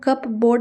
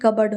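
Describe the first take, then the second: First: The p is pronounced, like cup plus board. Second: The p is silent, sounding like cubbard. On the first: The speaker calls it wrong. "कप बोर्ड नहीं होता है" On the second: The speaker calls it right. "बल्कि कबर्ड होता है। पी जो होता है वो साइलेंट होता है"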